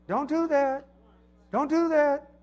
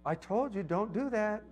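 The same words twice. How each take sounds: First: Mock losing patience with the kids; exasperated parent. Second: Said in the usual way. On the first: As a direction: parent snapping, pitch climbing. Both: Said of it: "you should never tell your kids".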